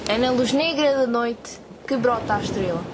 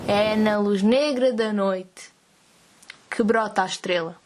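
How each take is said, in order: First: It is said at a faster pace. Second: It is said at a slower pace.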